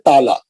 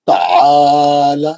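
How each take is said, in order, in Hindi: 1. बीच के व्यंजन के बाद का स्वर छोटा है। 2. बीच के व्यंजन के बाद का स्वर खींचा हुआ है। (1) "हम लोग क्या करते हैं ताला।" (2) "ऐन के बाद खींचना है। ... ऐसा ये लहज़ा आना चाहिए"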